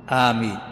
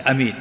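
First: "aameen" with a lengthened opening vowel; long alif in "ameen". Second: "amin" with no lengthened opening a; short hamza in "amin". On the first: Teacher contrasting the variants of the word, long first vowel in "aameen". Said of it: "فيها، فيها لغات". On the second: Teacher showing the other variant, shortened first vowel in "amin". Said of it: "قصر الهمزة". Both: Shown as a demonstration.

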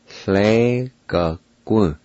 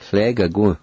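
First: Hle ga gu drawn out slowly, every syllable clear; slow careful pronunciation. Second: Said in the usual way. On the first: Shown as a demonstration. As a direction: stretch Hle ga gu for the learner. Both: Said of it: "pronounce these words".

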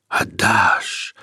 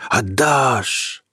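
First: Whispered roaring flame. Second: Voiced, rising flame cry. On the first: Acted. The fire demanding Peter's heart, whispered roar. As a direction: breathe it like crackling fire. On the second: The fire demanding Peter's heart, voiced cry. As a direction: let the fire call out aloud. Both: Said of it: "шумело пламя".

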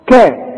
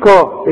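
First: "كا" as a thin, fronted KEH; correct light Kaf. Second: "كا" as a thick, backed KAW; wrong heavy Kaf. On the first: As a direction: keep the vowel of "كا" light and forward. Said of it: "الكاف". ("كا" بكاف مرققة) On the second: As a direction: make the vowel of "كا" heavy and dark. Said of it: "مش كا". ("كا" بكاف مفخمة غلط) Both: Shown as a demonstration.

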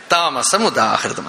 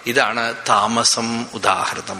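First: താമസം stressed with a falling tune, ഉദാഹൃതം slow; deliberate slow citation of താമസം ഉദാഹൃതം. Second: ഇതാണ് weighted, then താമസം ഉദാഹൃതം drawn out very slow and low; slow emphatic quoting of ഇതാണ് താമസം ഉദാഹൃതം; stress on ഇതാണ്. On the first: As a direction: hit താമസം, let the phrase fall. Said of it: "അതായത്". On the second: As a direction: lean on ഇതാണ് and spell out the phrase slowly. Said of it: "ഇപ്പൊ മനസ്സിലായല്ലോ". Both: Shown as a demonstration.

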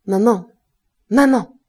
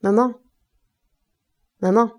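First: Violent call. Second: Calling from the next room, raised and rising. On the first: Son shouts for his mother a second time, violently. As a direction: call her again, harder and angrier. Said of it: "plus violemment". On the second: Son calls his mother from his room, raised call. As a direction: call for your mother from behind the door. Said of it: "la voix de Goujet qui l'appelait". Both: A narrator's reading.

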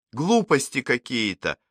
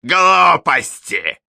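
First: Said in the usual way. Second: "Глупости" mocked in a high, slow, loud prissy voice; high mincing mimicry. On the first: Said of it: "передразнил Алекс". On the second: A narrator's reading. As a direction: drag "Глупости" out shrill and affected. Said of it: "передразнил ... высоким жеманным голосом".

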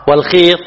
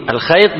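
First: Long ee after the kh in والخيط; kasra on the kha. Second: Ay glide after the kh in الخيط; fatha on the kha. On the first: Teacher contrasting two words for students, والخيط as wal-kheet. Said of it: "بكسر الخاء". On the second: Teacher contrasting two words for students, الخيط as al-khayt. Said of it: "بفتح الخاء". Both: Shown as a demonstration.

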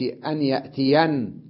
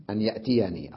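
First: No ee after the n of يأتين; stop on n. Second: يأتيني with final ee sounded; original form. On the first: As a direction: end يأتين on a vowelless n. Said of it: "وقف على النون بالسكون وحذف الياء". (وقف على النون وحذف الياء) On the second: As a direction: end يأتيني openly on ee. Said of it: "أصلها أن يأتيني". (الأصل بإثبات الياء) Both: Shown as a demonstration.

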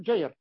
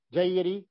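First: جير with the final ر silent, stopping on it; pausal form. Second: جيري with the ر voweled with a clear i; with kasra. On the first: Teacher shows students the pausal reading, جير with a silent ر. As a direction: stop on جير, no vowel after the ر. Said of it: "إذا وقفت عليها يقول جير". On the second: Teacher shows students the connected reading, جيري with kasra. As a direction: give جيري its kasra, ending on ri. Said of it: "حركت جيري بالكسر". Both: Shown as a demonstration.

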